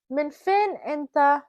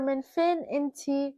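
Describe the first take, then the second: First: "Min fin inta" slow, stress on "fin", ending in -ta; Arabic pronunciation. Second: "Min fin inti" slow, stress on "fin", ending in -ti; Arabic pronunciation. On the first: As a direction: carefully model "Min fin inta" word by word. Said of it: "inta is if you're talking to a male". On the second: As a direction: carefully model "Min fin inti" for a woman. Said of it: "inti is if you're talking to a female". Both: Shown as a demonstration.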